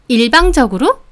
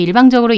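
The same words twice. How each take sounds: First: "일방적으로?" thrown back with a sharp rising end; challenging echo. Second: Said in the usual way. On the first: Acted. Customer seizing on the shop owner's word, challenging. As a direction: repeat the word as an offended question. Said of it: "제 말꼬투리를 잡으며". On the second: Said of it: "차분하게 말을 했죠".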